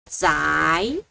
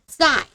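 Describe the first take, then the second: First: The pitch rises from middle to high. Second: The pitch falls sharply from high to low. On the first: "second tone" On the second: "Fourth tone"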